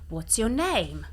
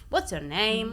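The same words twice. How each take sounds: First: The pitch falls at the end of the question. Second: The pitch rises at the end of the question. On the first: "si va a scendere nonostante siano domande" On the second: "un italiano direbbe"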